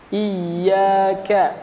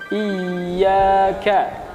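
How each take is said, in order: No difference in how they are said.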